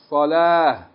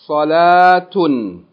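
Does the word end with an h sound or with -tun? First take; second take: h sound; tun. First: The word ends in an h sound, no final vowel. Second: The word ends in a full -tun ending. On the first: The reader stops at this word. "If we stop down with this word, we pronounce the ta marbuta as ha. And we don't pronounce the vowels on the end of it" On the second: The reader keeps reading past this word. "if we keep reading, we say, we pronounce everything"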